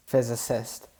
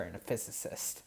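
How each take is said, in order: First: Said in the usual way. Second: Whispered, fading; unvoiced trail. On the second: Real, not acted. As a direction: breathe the last words out. Trails off voicelessly.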